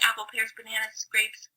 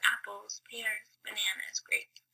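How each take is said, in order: First: The list is said fast. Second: The list is said slowly.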